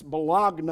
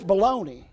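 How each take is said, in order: First: The word ends with a 'nyuh' sound. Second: The word ends with a 'nee' sound. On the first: This is how northerners say it. "Those that are from the north, that's Bologna" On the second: This is how southerners say it. "In the south, it's baloney"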